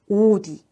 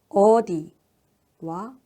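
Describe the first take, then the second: First: The first vowel is rounded, like oh. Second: The first vowel is unrounded, like uh. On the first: "어를 오로 발음하게 된다면" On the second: "어라고 하는 모음"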